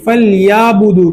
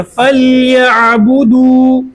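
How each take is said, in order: First: फलयाबुदू with alif in place of ain; wrong alif sound. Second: फलयाबुदू with a clear throaty ain; ain sounded. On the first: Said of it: "जो कि गलत है।". (फलयाबुदू में ऐन की जगह अलिफ) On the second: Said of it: "आइन निकलेगा।". (फलयाबुदू में ऐन साफ़ निकले) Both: Shown as a demonstration.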